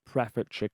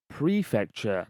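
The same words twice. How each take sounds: First: "prefecture" with a short PREF; wrong pronunciation. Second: "Prefecture" with a long PREE; correcting pronunciation. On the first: Audio engineer quoting the author's mistake, short-vowel "prefecture". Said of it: "not prefecture". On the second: Audio engineer correcting the author, measured "Prefecture" as PREE-fecture. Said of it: "he'd be like". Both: Retold or imitated.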